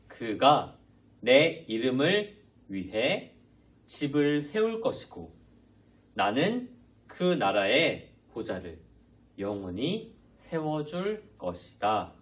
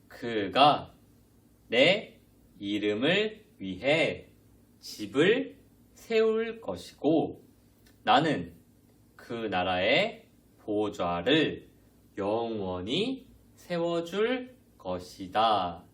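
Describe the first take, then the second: First: The verse is read fast. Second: The verse is read slowly.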